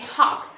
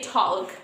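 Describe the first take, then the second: First: The L in the word is silent. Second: The L in the word is pronounced. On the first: The speaker calls it right. "We just say talk. So this L is also silent" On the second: The speaker calls it wrong. "We don't say talk"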